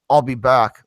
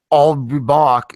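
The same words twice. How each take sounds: First: Put-on a light California accent on "I'll be back". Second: Slow, loud "I'll be back" with a hint of Austrian accent. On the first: Mocking the changed line to his friends, light California accent. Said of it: "a fucking California accent". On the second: Quoting the original Terminator line to his friends, slow Austrian accent. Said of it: "in a slow Austrian accent".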